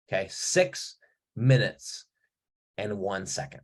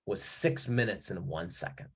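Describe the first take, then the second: First: "six", "minutes" and "and one second" split by pauses, each piece set apart; spaced-out emphasis. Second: Said in the usual way. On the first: Shown as a demonstration.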